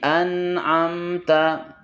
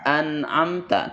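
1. Bunyi n dan m ditahan dengan sedang dan stabil. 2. Bunyi n dan m dilepas dengan kuat. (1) "tidak mengalir, tidak kuat di antara keduanya" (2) "Jangan an'amta"

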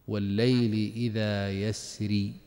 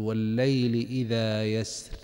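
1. تنتهي الكلمة الأخيرة بصوت مد طويل 'ee'. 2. تنتهي الكلمة الأخيرة بصوت راء خفيف. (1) "وراؤه كما ترون مكسورة إشارة إلى الياء المحذوفة" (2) "الأمثل فيها الترقيق عند الوقف"

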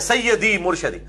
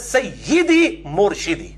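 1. 'sayy' के बाद का स्वर 'a' ध्वनि है। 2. 'sayy' के बाद का स्वर 'i' ध्वनि है। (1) "नारे" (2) "जेर है या के नीचे"

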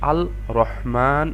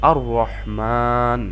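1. L উচ্চারিত হয় R-এর আগে। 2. L বাদ পড়ে, আর R দ্বিগুণ হয়। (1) "মোটেও আল রহমান এভাবে না পড়ে" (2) "আমরা পড়ছি"

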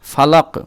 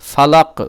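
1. শব্দটি শেষ ব্যঞ্জনধ্বনি দিয়ে শেষ হয়। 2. শব্দটি শেষ ব্যঞ্জনধ্বনি দিয়ে শেষ হয়।

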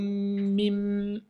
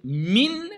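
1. Le n se fond dans un son m doublé. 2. Le mot finit par un son n clair. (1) "je vais dire hablum mim" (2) "au lieu de dire min"

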